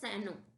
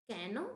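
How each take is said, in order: First: The word begins with an S sound. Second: The word begins with a K sound. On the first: The speaker calls it right. "इसको हम सैनो पढ़ेंगे" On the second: The speaker calls it wrong. "कैनो या सैनो?"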